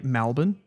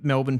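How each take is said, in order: First: The first vowel sounds like an 'a'. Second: The first vowel sounds like a plain 'e'.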